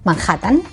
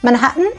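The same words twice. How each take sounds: First: It is said with a Spanish J sound. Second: It is said with an English H sound.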